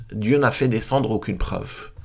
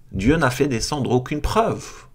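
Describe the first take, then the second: No difference in how they are said.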